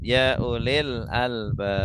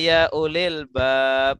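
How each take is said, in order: First: The last word is the two-syllable albab. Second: The last word is the short one-syllable bab. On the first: O people who have minds. The speaker calls it right. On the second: O people who have doors. The speaker calls it wrong.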